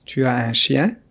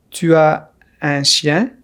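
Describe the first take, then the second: First: Said in the usual way. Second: Tu as un chien slowly, in parts; careful slow question for learners; slow model. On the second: Shown as a demonstration. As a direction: pause after Tu as, then un chien. Slow model, then natural repeat.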